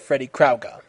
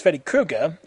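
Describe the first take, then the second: First: "Krueger" said as "KROW-ger"; pronounced Krauger. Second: "Krueger" said as "KROO-ger"; pronounced Krueger. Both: Shown as a demonstration. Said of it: "Not to be confused with".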